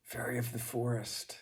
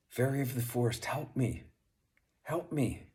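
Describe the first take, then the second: First: A raised, high call into the forest. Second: Higher, louder and faster, pleading for help; urgent calling out. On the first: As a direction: call for the fairy, reaching out. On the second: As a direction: cry out to the fairy, building urgency. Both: Acted. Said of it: "he called out".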